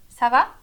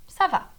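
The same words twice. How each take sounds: First: "Ça va" rising at the end, louder; question intonation. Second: "Ça va" starting high, falling at the end; answer intonation. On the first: Teacher showing ça va as a question, rising tune. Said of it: "serve tanto pra perguntar quanto pra responder". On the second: Teacher showing ça va as an answer, falling tune. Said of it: "quanto pra responder". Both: Shown as a demonstration.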